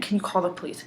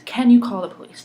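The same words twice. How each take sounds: First: Said in the usual way. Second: Much louder, urgent repeat of the question; insistent retold plea. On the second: Bystander asking a driver for help, loud and insistent. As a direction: press the request hard, raising your voice.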